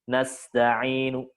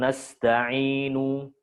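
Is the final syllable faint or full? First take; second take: faint; full. First: The final syllable is said short and quiet. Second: The final syllable is said fully and clearly. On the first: The speaker calls it right. "nu-nya dibaca tapi pelan dan pendek" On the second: The speaker calls it wrong. "Bukan nasta'inu"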